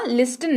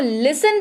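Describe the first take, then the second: First: The t sound is pronounced in the middle. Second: The t sound is left out entirely. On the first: The speaker calls it wrong. "लिस्टन नहीं" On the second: The speaker calls it right. "इसको लिसन पढ़ते हैं। टी यहां पर होते हैं भाई साहब साइलेंट"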